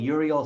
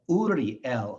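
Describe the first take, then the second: First: It is said with an English pronunciation. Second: It is said with a Hebrew pronunciation. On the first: The speaker calls it wrong. "their names in English are" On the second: The speaker calls it right. "In Hebrew, it's"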